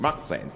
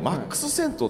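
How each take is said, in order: First: It is said with English-style sounds. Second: It is said with Japanese katakana-style sounds. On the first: "英語喋れる感じで言うと" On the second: "マックスセントっていう発音を"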